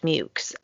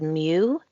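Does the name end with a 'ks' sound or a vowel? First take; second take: ks sound; vowel. First: The name ends with a 'ks' sound. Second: The name ends on a plain vowel sound. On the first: This is how the written accounts say it is said. "specifically said that it's pronounced Mukes" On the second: This is how the spelling suggests it is said. "so I would have said Mew"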